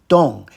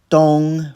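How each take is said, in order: First: The pitch falls sharply from high. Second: The pitch stays high and level. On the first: "fourth tone" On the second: "first tone"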